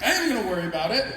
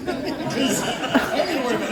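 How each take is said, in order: First: "am" pushed up, fast and laughing; stress on am. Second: Higher, louder insistence on "gonna"; insist, leaning on "gonna"; emphatic repeat. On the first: Actor retelling his reply to Costner, "am" stressed. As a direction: hit "am" hard, rushing the rest. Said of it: "I'm like". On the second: Actor insisting to Costner, louder with "gonna" stressed. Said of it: "That's what I said". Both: Retold or imitated.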